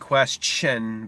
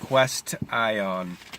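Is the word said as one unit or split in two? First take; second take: one unit; split. First: The word is said smoothly as one unit. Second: The word is broken into two separate parts. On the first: "You say question" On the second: "You don't say it that way"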